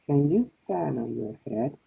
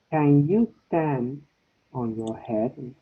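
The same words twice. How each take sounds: First: "Can" quick and reduced at normal pace; unstressed can. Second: Slow, with "Can" drawn out long and stressed. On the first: Teacher modelling unstressed can for the class. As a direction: clip "Can" short and weak. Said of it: "This is short". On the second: Teacher modelling stressed can for the class. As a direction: stretch "Can" and say the whole question slowly. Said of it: "when you have the stress is longer". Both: Shown as a demonstration.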